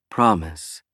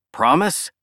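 First: Promise. low, falling and settled; firm reassurance. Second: Promise? rising high and hopeful; pleading question. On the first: Lisha answers the promise. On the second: Billy asks Lisha to promise. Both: Acted.

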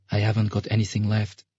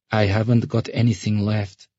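First: Lightly voiced girl, kept small; subdued girl. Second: Put-on downcast girl. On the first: Sasha telling the ferryman she is penniless, subdued. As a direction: answer with a touch of guardedness. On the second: Sasha repeating herself to the ferryman, downcast. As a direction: repeat it with eyes lowered. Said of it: "she repeated, lowering her eyes".

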